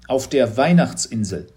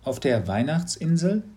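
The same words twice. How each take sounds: First: "Weihnachtsinsel" said firmly with a falling end; falling statement. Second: "Weihnachtsinsel" rising in astonished question; stunned boy echoing "Weihnachtsinsel?"; breathless surprise. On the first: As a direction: settle it as plain fact, "Weihnachtsinsel" falling. Teacher states the place. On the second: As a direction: echo "Weihnachtsinsel" with a rising, disbelieving end. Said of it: "Mats blieb fast der Atem stehen". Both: A narrator's reading.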